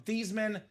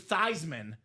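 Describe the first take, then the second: First: The name does not rhyme with Heisman. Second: The name rhymes with Heisman. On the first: This is the family's original pronunciation. "change the pronunciation of your last name from Theismann" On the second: The name was changed to match the trophy. "to Theismann so it could be Theismann for the Heisman"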